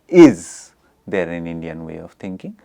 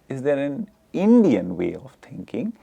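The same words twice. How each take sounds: First: The stress falls on the word is. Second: The stress falls on the word Indian. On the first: "there is a stress on is" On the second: "the stress is on Indian"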